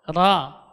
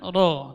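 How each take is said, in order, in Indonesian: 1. Vokal itu diucapkan dengan bibir tidak dibulatkan. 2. Vokal itu diucapkan dengan bibir dibulatkan. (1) "Tidak ada gerakan kedua bibir mengucapkan ra" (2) "Jadi bukan ro"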